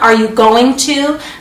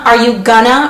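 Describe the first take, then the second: First: Going to is said in full, two clear words. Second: Going to is reduced to a quick gonna.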